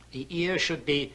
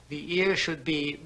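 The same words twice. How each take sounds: The two takes are said the same way.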